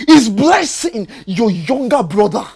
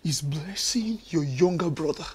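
First: Firmer, insistent repeat of the question; pressing demand. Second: Low, soft, suspicious question; quiet probing question. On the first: Husband repeating his question to wife, now insistent. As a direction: push harder, demand the truth. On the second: Husband questioning wife, quietly suspicious. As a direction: ask it quietly, testing her. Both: Acted.

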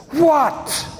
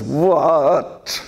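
First: Put-on sharp, high, put-out teenage "What?" thrown at mom; annoyed teen what. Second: "What?" with a laugh, a hint of teenage huff. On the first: Boy embarrassed by his mother's touch, indignant high "What?". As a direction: snap "What?" like an embarrassed ten-year-old. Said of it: "he turns to her and says". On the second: Boy says it again to his mother, amused mock-indignant "What?". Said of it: "And then he says".

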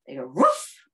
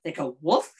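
First: A bigger dog bark on woof; louder mock woof. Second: Said in the usual way. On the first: Shown as a demonstration. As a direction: make woof sound like a dog. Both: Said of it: "what are some sounds that dogs make".

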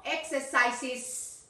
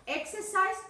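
First: Slow "exercises" with an added -iz syllable; plural ending. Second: "exercise" ending on a single s; singular ending. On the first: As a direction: sound out the plural end of "exercises". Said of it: "porque es plural". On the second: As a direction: give "exercise" without the extra syllable. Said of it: "no, exercises". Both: Shown as a demonstration.

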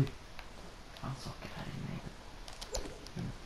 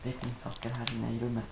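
First: Hushed, unvoiced repeat; whispered aside. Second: Said in the usual way. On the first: Real, not acted. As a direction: whisper it so nobody hears.

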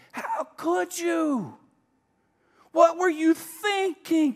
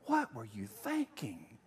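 First: High, loud, slow accusing scold; scolding rebuke. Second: Low, slow, softer disappointed question; disapproving. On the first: Pastor mimics a scolding Jesus, high and loud. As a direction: hurl the blame like a disappointed judge. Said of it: "he doesn't say". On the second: Pastor pictures Jesus quietly disapproving of him. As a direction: let the disappointment sink in slowly. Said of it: "I just picture him saying to me". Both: Pretend.

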